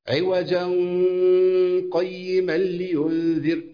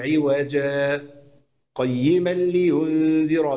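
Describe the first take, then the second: First: The words run together with no stop. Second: A brief silent stop follows the first word. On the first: "لو هوصل بقى بدون سكت" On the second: "أنا سكتت بدون تنفس"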